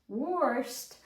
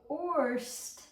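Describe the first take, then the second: No difference in how they are said.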